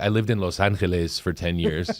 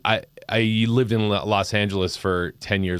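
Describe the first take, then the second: First: Los Angeles is said with a Spanish pronunciation. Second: Los Angeles is said with an English pronunciation. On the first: The speaker calls it wrong. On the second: The speaker calls it right.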